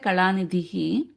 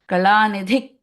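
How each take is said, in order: First: The word ends with an h sound. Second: The word ends with a k sound. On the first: The speaker calls it wrong. "we will not say Kalanidhihi" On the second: The speaker calls it right. "We will say with the ka sound"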